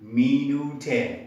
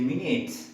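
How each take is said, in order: First: An extra vowel is sounded after the final t. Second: The word ends cleanly on the t sound. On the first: The speaker calls it wrong. "we cannot say minute" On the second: The speaker calls it right. "it has no sound"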